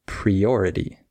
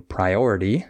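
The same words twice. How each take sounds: First: Priority said pree-OR-ity; wrong vowel. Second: Priority said pry-OR-ity; long I vowel. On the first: Teacher imitating a learner's slip, priority starting with "pree". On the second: Teacher modelling the right vowel, priority starting with "pry". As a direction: say the first vowel of priority like "eye". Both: Shown as a demonstration. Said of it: "saying the wrong vowel".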